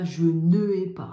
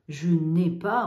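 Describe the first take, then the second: First: "je ne ai pas" with ne and ai kept apart; wrong unelided form. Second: "je n'ai pas" said loud with clear elided n'; loud model of "je n'ai pas", the n' joined to ai. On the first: Teacher showing the wrong form, loudly. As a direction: say "ne ai" separately, the wrong way. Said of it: "on ne dit pas". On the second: Teacher showing pupils the elision, loud. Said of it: "Là, on entend". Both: Shown as a demonstration.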